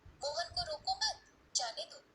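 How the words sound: The pause comes right after 'mat', before 'jaane'.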